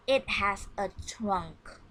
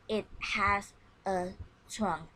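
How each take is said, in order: First: Slow model reading. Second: Said in the usual way. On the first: Shown as a demonstration. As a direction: read it slow for the class to copy. (membaca "It has a trunk" pelan dan jelas sebagai contoh) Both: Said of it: "And you repeat my reading".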